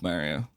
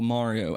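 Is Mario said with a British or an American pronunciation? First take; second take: British; American. First: The name is said with a British pronunciation. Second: The name is said with an American pronunciation. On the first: The speaker calls it wrong. "I don't say his name right ... maybe a British thing" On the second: The speaker calls it right. "as you should actually say it"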